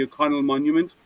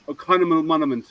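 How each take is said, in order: First: Said in the usual way. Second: "O'Connell Monument" muddled into "O'Connamal Monament"; sister's garbled version. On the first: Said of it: "she's totally lost". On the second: Retold or imitated. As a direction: trip over "O'Connell Monument" with an extra M and no Y sound. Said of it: "is what she says".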